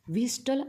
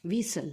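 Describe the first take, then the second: First: A t sound is pronounced in the middle. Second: The t in the middle is silent. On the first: The speaker calls it wrong. "असं त्याचा उच्चार करायचा नाही" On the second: The speaker calls it right. "काय करायचं उच्चार"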